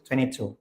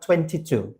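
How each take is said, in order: First: It is said in an American accent. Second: It is said in a British accent.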